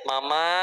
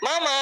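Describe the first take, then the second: First: The word is called softly and gently. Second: The word is called with a raised, louder pitch. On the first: The call is polite but not heard. "sembut manggilnya" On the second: The call is louder but still not heard. "mesti naik dong nadanya"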